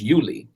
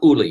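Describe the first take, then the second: First: The name begins with a 'yoo' sound. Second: The name begins with a plain 'oo' sound. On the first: The speaker calls it right. "It is Yuli" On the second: The speaker calls it wrong. "it is not Uli"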